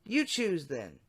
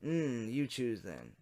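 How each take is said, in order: First: A lightly raised decoy voice; wrong voice. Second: Man's chat voice. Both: Shown as a demonstration. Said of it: "Wrong voice".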